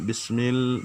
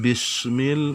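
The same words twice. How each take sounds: First: The s is said as a plain s sound. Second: The s is said as a hissing sh sound. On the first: The speaker calls it right. "Biasa saja" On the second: The speaker calls it wrong. "itu sudah masuk sim ini"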